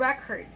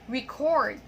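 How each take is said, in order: First: The stress is on the first syllable. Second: The stress is on the second syllable. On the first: It is used as a noun. "for the nouns and adjectives, as I have mentioned earlier, we stress the first syllable" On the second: It is used as a verb. "but for the verbs, we stress the second syllable"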